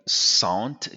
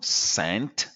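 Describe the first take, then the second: First: SANT with a nasal "on" vowel; French-style SANT, vowel through the nose. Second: SCENT with a plain short e, "sent"; slow, clear English SCENT; correct English vowel. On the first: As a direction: say SANT like French "sont" plus t. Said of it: "E N combination in French is en". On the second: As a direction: SCENT with e as in "ten". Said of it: "just think of scent". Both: Shown as a demonstration.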